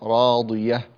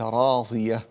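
First: The middle consonant is a full dad sound. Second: The middle consonant is a dha-like sound. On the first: The speaker calls it right. "خليها ضاد وليس ضاء" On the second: The speaker calls it wrong. "وليس راضية"

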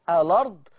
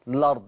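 First: The word begins with a vowel before the l. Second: The word begins directly with the l sound. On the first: "ينفع أبدأ بهمزة الوصل وأقول" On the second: "وينفع أشيل همزة الوصل وأبدأ باللام مباشرة"

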